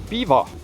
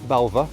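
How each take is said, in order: First: The name sounds like 'beaver'. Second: The name sounds like 'bel-va'. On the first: The speaker calls it right. "it is Beaver" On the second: The speaker calls it wrong. "or Be- Belva"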